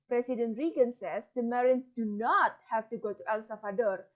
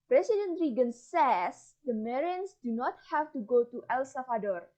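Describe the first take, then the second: First: The stress falls on the word not. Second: The stress falls on the word says.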